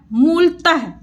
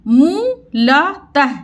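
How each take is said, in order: First: Said in the usual way. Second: मूलतः spelled out slowly as मू-ल-तः; slow syllable by syllable. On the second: Shown as a demonstration. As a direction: sound out मूलतः one syllable at a time. (मूलतः धीरे-धीरे अक्षर तोड़कर)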